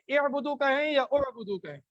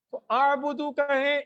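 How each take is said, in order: First: اعبدو said first with e then with o; vowel choices. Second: اعبدو tried with a different first vowel; vowel choice. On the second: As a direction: test out اعبدو with a fresh vowel. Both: Shown as a demonstration.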